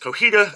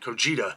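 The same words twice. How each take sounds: First: The middle consonant is an H sound. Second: The middle consonant is a J sound. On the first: The speaker calls it right. "as the J has an H sound" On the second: The speaker calls it wrong. "I was pronouncing it Cojita"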